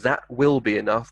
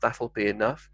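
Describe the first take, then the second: First: The words 'that will' are said in full. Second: The words 'that will' are contracted into one.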